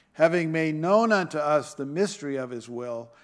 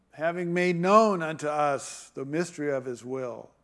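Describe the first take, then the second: The two takes are said the same way.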